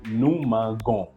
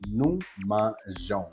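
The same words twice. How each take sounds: First: The g is hard, like the g in go. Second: The g is soft, like the s in measure. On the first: The speaker calls it wrong. "Without that, otherwise that would be giving you" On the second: The speaker calls it right. "just to have the song Jean"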